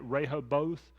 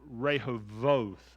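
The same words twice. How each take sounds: First: The consonant before the last syllable is a b. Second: The consonant before the last syllable is a v. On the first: The speaker calls it wrong. "as we would say it" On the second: The speaker calls it right. "It actually is Rehoboth, like a V"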